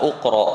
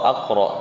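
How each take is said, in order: First: The word begins with an u vowel. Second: The word begins with an a vowel. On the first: "maka kita bukan baca uqra" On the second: "atau aqra"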